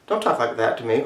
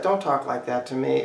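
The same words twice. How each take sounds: First: Low, quiet hostility; a restrained, hostile warning. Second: Hushed, understated upset; really upset. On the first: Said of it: "right now they're being hostile". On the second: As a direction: play it upset, kept very quiet. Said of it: "or they're really upset". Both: Shown as a demonstration.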